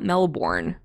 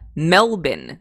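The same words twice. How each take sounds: First: It is said with a non-Australian pronunciation. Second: It is said with the Australian pronunciation. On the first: The speaker calls it wrong. "not Melbourne" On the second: The speaker calls it right. "this is how they pronounce it in Australia"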